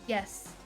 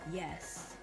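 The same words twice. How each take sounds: First: The yes is said in an ordinary, natural way. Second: The yes is said in a flat, creepy way. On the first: The person is responding like a normal person. The speaker calls it right. "You say" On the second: The person is not responding like a normal person. The speaker calls it wrong. "That's not normal. That's not how you normally say yes"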